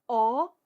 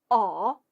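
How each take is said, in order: First: The pitch rises from middle to high. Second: The pitch dips low, then rises. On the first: "二声" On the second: "三声"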